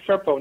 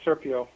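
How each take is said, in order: First: The name is said with two syllables. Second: The name is said with three syllables. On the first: The speaker calls it right. "it's Serpo" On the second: The speaker calls it wrong. "not Serpio"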